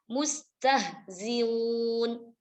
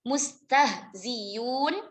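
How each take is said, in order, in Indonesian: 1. Hamzah dilunakkan, setengah jalan menuju vokal. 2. Hamzah diganti dengan bunyi y yang jelas. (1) "bitashilil hamzati baina baina ... maka dibaca dengan mustahziun" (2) "diibdalkan hamzahnya dengan ya ... murni huruf ya"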